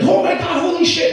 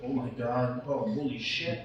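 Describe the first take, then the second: First: High shrieking oh my God, much louder; mock ladies screaming. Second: Low, much softer murmur of disbelief; hushed shocked aside. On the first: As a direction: shriek like a room of excited older ladies. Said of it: "they all start screaming". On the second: Retold or imitated. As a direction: say it under your breath while staring. His own quiet reaction, looking.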